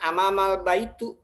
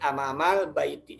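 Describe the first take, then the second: First: The last word ends in an u vowel. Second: The last word ends in an i vowel. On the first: The speaker calls it wrong. "jangan amamal baitu" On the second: The speaker calls it right. "tapi amamal baiti. Semua di kasroh"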